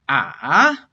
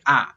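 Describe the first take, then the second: First: "ah" dropping low, then climbing back up; drawn-out "ah" with a down-then-up contour; dipping tone. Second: "ah" falling low without coming back up; short "ah" with a downward pitch only. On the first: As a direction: dip deep on "ah" and come up. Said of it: "third tone is a dipping tone". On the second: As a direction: let "ah" sink and stay down. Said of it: "It's just a low falling tone". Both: Shown as a demonstration.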